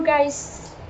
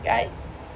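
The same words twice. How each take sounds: First: Said in the usual way. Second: Breathy whisper, barely voiced; whispered call. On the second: Real, not acted. Vlogger whispering to viewers to call them back. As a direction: whisper "Guys" to the camera like a secret.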